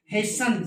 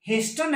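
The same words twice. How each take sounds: First: 'hasten' said as 'hasen'; British hasten, silent t. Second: American-style 'hasten', t pronounced; hasten with t sounded. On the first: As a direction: drop the t in hasten. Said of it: "यानी England वाली को". ('हेसन', 'ट' silent) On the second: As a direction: put a t into hasten. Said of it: "हेस्टन है American में". ('हेस्टन', 'ट' के साथ) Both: Shown as a demonstration.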